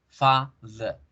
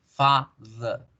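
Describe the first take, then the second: The two takes are said the same way.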